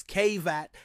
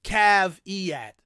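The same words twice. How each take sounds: First: Caveat as KAY-vat, first syllable like "cave"; mock American caveat. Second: Caveat as KAV-ee-ah, the final t dropped; claimed correct caveat. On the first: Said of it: "mispronounced by Americans as caveat". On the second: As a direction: caveat said KAV-ee-ah, three syllables. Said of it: "instead of". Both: Shown as a demonstration.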